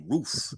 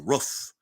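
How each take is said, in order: First: Said in the usual way. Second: "roof" with a short vowel, like "ruff"; Baltimore accent. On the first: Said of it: "Baltimore people can't say". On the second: Retold or imitated. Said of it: "They say".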